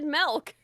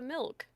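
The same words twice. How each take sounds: First: The vowel sounds like an 'eh' sound. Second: The vowel sounds like an 'ih' sound. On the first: "you said milk" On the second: "instead of milk"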